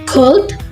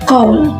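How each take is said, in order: First: The final d sound is clearly heard. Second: The final d sound is dropped.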